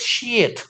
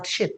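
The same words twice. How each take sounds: First: SHEET with a long ee; long vowel. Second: SHEET clipped to a short i; short vowel. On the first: Teacher modelling five hundred pages, long high SHEET. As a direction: hold the ee in SHEET. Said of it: "Harus panjang". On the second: Teacher showing the mistake, short-vowel SHEET. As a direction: cut SHEET short with a lax i. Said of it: "not sheet". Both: Shown as a demonstration.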